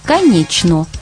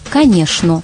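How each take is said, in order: First: The middle cluster sounds like 'chn'. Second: The middle cluster sounds like 'shn'. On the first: "произносится так же, как пишется" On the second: "а в Москве «шн»"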